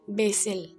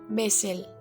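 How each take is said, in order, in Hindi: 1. यह अमेरिकी लहजे में बोला गया है। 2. यह अमेरिकी लहजे में बोला गया है।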